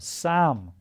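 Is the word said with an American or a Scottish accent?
Scottish. It is said with a Scottish pronunciation.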